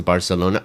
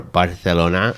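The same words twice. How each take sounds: First: Said in the usual way. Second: "Barcelona" with a th sound for the c; Castilian pronunciation. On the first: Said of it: "Is that they say it?". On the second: Shown as a demonstration. Tutor's student trying the local name, "Barcelona" with Castilian th. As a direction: lisp the c in "Barcelona" as th. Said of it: "they say it weird".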